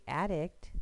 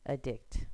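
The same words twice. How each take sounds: First: The stress is on the first syllable. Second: The stress is on the second syllable. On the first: The word is a noun. "the noun ... it would be addict" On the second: The word is a verb. "the next one would be addict"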